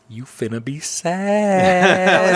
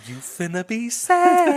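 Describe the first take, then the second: First: Slow, drawn-out teasing warning; knowing warning. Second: Much higher, very slow sing-song taunt; teasing warning repeated. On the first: Leaning over to warn her in the theater, slow and teasing. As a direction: stretch it out like you know what's coming. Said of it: "I lean over to her and I was like". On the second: Repeating the warning to her, slow and sing-song. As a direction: draw it out, singing the told-you-so. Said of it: "I said". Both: Retold or imitated.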